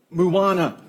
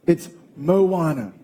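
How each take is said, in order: First: "Moana" with first syllable as "moo"; mispronounced Moana. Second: "Moana" slowly, with a clear "mo"; corrected Moana. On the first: Wife quotes husband's mistake, "Moana" said moo-AH-na. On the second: Wife corrects husband, "Moana" said slowly as mo-AH-na. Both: Retold or imitated. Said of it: "it's not Moana. It's Moana".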